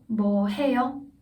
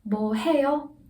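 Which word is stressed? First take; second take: 해요; 해요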